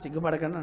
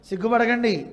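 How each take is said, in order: First: It is said in an ordinary, plain tone. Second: It is said in a raised, sarcastic tone. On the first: A sincere request not to be shy. "మామూలుగా" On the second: The meaning turns into mockery. "అర్థం అది మారిపోతుంది"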